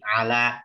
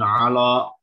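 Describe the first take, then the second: First: The sounds are thin, with the mouth wide open. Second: The sounds are thick and heavy, as if darkened. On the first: The speaker calls it right. "Ain sama lam tipis dua-duanya... lebih dibuka" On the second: The speaker calls it wrong. "bukan Allah"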